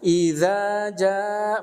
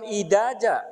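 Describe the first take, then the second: First: The second consonant is a soft 'dh' sound. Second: The second consonant is a hard 'd' sound. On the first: The speaker calls it right. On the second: The speaker calls it wrong. "bukan idaja"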